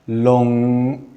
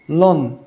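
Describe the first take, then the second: First: The word ends with a long ringing ng. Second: The word ends with a short plain n. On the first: The speaker calls it right. "النطق الصح بتاعها long" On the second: The speaker calls it wrong. "وفي نفس الوقت ما نقولش long"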